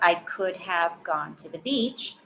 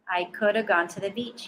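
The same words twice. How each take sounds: First: 'Could have' is said as two full words. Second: 'Could have' is reduced to 'coulda'. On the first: The speaker calls it wrong. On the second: The speaker calls it right.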